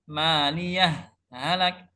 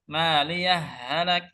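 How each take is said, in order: First: A brief breathless stop separates the two words. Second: The two words run together without a stop. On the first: "berhenti tanpa nafas" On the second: "Cara baca kedua itu idgham"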